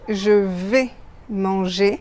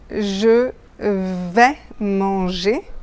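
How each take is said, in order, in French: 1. La voyelle dans 'vais' est fermée. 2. La voyelle dans 'vais' est ouverte. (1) "avec un et fermé" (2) "ça c'est la prononciation correcte"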